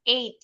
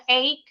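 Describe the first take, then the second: First: EIGHT with silent GH, ending in a clean t; pelafalan benar. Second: EIGHT read wrongly with a hard k sound, like "eyk"; salah ucap. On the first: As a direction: say EIGHT as "eyt", no k sound. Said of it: "tapi bacanya eight". (EIGHT dibaca "eit", GH tidak berbunyi) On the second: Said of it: "Jadi nggak boleh bacanya". (EIGHT dibaca keliru dengan bunyi k, "eik") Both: Shown as a demonstration.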